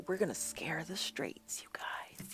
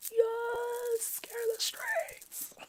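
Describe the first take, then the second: First: Hushed conspiratorial whisper. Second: Very high, slow, breathless whisper; squeaky high whisper. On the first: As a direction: lean in and whisper it. Playful conspiratorial aside. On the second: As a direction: squeak it out in a tiny voice. Repeats it as a squeaky joke. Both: Pretend.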